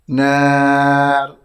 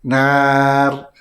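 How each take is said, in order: No difference in how they are said.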